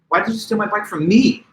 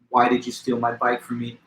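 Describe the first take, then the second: First: The word me is stressed. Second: It is flat with no word stressed. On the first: "Now I'm accenting the word me" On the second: "in a straight monotone with no variation"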